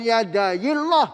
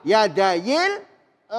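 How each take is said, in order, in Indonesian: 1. Suku kata terakhir berat, bunyinya seperti o. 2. Suku kata terakhir ringan, dengan bunyi a yang tipis. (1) "bukan pakai o, bukan yadayillah" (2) "dibaca yadillah"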